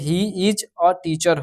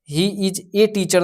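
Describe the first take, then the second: First: The word 'a' sounds like 'uh'. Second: The word 'a' sounds like 'ay'. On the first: The speaker calls it right. "यहाँ पे he is अ teacher होगा" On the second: The speaker calls it wrong. "He is ए teacher नहीं होगा"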